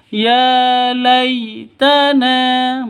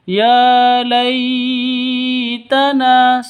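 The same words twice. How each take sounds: First: The syllable 'lay' is soft and smooth. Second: The syllable 'lay' is jerked or stretched. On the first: The speaker calls it right. "yang betul ... begitu ya" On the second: The speaker calls it wrong.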